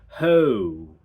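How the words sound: The vowel opens up and glides toward oh. "you have ho"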